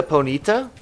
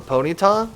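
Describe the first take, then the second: First: "Ponyta" said poh-NEE-tuh; "Ponyta" as poh-NEE-tuh, tentative; alternative pronunciation. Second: "Ponyta" said POH-nee-tah; "Ponyta" as POH-nee-tah, unsure; alternative pronunciation. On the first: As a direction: say "Ponyta" with a short final tuh. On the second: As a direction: say "Ponyta" like pony plus tah. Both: Shown as a demonstration. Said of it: "however you say it".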